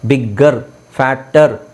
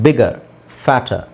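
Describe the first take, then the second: First: The middle consonants are doubled and held long. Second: The middle consonants are single and short. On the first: The speaker calls it wrong. "ಅಂತ ಹೇಳೋದಿಲ್ಲ" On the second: The speaker calls it right. "ಈ ಥರ ಹೇಳಿದೆ"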